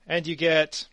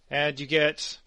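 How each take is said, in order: Both takes have the same delivery.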